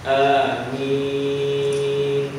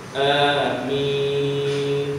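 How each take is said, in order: No difference in how they are said.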